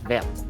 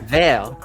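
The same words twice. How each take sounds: First: The final T sound is clearly pronounced. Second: The final T sound is silent. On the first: A T is written at the end. "But you add a t on it" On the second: It means green in French. "vert is green in French"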